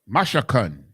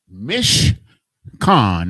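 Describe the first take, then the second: First: It is said in three syllables, ma-sha-kan. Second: It is said in two syllables, mish-kan. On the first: This follows the letters of the word. "Ma, sha, kan is the word" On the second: This is how others pronounce it. "That's how they pronounce it"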